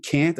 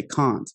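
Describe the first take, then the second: First: Said in the usual way. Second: "can't" with a long open ah; British "can't". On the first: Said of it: "instead of saying can't". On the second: Shown as a demonstration. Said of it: "I should say can't".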